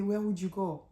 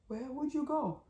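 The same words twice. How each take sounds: First: Mildly voiced menacing question; imitating him. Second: Higher, much softer plaintive echo; imitating him, softer. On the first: Husband questions his fleeing wife, mildly menacing. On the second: Husband repeats the question to his wife, high and hushed. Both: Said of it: "that part when he said".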